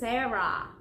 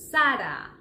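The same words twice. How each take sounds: First: The first vowel is less open. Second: The first vowel is very open. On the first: The speaker calls it wrong. "The mistake everybody makes is" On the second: The speaker calls it right. "this name should be pronounced as"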